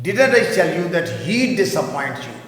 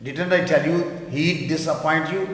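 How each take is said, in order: First: Slow, careful reading; teacher models contraction; slow model sentence. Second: Slow with he'd run together; teacher stresses he'd contraction. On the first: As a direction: read it slowly. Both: Shown as a demonstration. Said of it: "اس کی sound آئے گی he'd".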